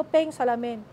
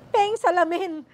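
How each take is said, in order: First: Said in the usual way. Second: Louder, higher insistent demand for the mirror; insistent repeat. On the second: Retold or imitated. Patient insisting to her daughter, louder, on the mirror. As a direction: press harder the second time. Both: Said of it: "Sulat ang sulat".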